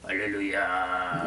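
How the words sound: It is said in a hoarse, worn-out voice.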